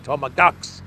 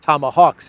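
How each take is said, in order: First: "Tomahawks" said as "Tomakawks", hard k in place of h, rising; mocking mispronunciation. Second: Said in the usual way. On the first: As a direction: imitate the mangled "Tomahawks" with a k in the middle. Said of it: "he was pronouncing it like Tomahawks". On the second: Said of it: "the Russian pronunciation of hawks".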